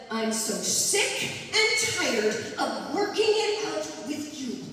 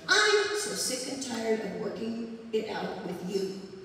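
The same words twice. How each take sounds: First: The stress falls on the verbs. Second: The stress falls on the pronouns. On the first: The speaker calls it right. "put the meaning in the consonants and stress the verbs" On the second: The speaker calls it wrong. "I'm going to do the first one again"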